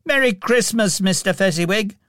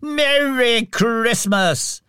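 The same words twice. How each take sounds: First: Quick, high-pitched cheerful call; young man calling back. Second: High, slow, jolly cheer; fat, jovial voice. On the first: Young Scrooge toasts his employer, calling back. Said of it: "calling back". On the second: Jolly employer toasts young Scrooge, jovially. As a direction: draw out the greeting heartily. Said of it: "jovial voice". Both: A narrator's reading.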